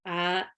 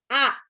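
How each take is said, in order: First: The vowels are said with the mouth barely open. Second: The vowels are said with the mouth wide open. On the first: The speaker calls it wrong. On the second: The speaker calls it right. "Benar-benar A-nya tuh lebar"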